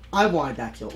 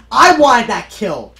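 First: Said in the usual way. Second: Loud, slow complaint; frustrated shout. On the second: Real, not acted. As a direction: complain loudly at the screen. Shout over a lost kill.

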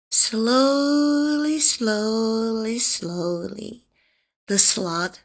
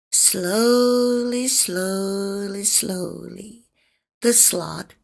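No difference in how they are said.

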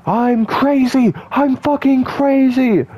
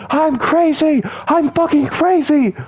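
First: Very high, loud put-on crazy voice, slowed; high, loud, slow manic mock yell. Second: Crazy voice. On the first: Shown as a demonstration. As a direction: squeal it like a cartoon maniac again on purpose. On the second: Pretend. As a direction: shriek it like a cartoon maniac. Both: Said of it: "I love talking like that".

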